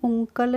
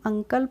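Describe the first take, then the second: First: The first vowel is a short 'oo' sound. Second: The first vowel is a short 'uh' sound. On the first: The speaker calls it wrong. "इसको हम उंकल नहीं पढ़ते हैं" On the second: The speaker calls it right. "इसको हम अंकल पढ़ते हैं"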